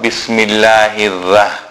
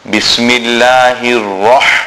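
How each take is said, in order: First: The r sound is light and thin. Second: The r sound is heavy and full-mouthed. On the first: The speaker calls it wrong. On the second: The speaker calls it right. "It is"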